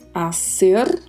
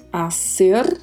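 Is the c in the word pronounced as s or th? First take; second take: s; s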